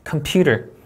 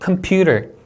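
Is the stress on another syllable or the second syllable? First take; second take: second syllable; second syllable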